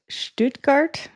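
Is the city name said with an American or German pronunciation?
German. It is said with a German-style pronunciation. "I think is how you pronounce it"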